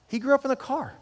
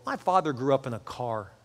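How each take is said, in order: First: "He grew up in a car" lifted high, "grew" hit hard; emphatic repeat. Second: Said in the usual way. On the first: Shown as a demonstration. Pastor repeating his father's hardship for the congregation, "grew" stressed high. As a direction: repeat it much higher, leaning on "grew".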